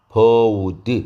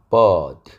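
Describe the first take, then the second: First: An 'oo' glide is added after the vowel. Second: The vowel is plain, with no glide added. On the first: The speaker calls it wrong. "버우드 이렇게 내서는 안 된다고요" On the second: The speaker calls it right. "버드 이렇게 내야지"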